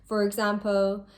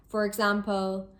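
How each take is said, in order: The two takes are said the same way.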